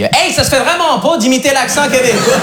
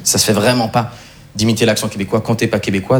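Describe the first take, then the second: First: High, drawn-out mock Québécois accent; hammed-up Québécois friend scolding. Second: Said in the usual way. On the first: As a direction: lay on a broad Québécois accent, slowly. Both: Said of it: "il me l'a pas dit comme ça".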